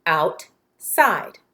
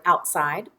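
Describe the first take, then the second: First: "Outside" broken in two, a clear pause after out; split into syllables. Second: Said in the usual way. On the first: Shown as a demonstration. Teacher taps our syllables for pupils, split syllable by syllable. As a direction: say "Outside" as two separate beats, out, side. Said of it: "Let's tap our syllables". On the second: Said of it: "Say the word outside".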